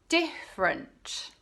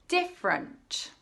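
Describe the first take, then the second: The two takes are said the same way.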